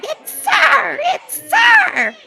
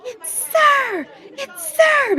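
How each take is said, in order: First: Very high, loud mocking shriek breaking into laughter; mock scream with laughter. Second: High shrill-pitched mocking shriek; mock scream. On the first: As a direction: scream it while laughing at them. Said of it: "they're just screaming". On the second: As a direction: screech it like the heckler. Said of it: "they start screaming".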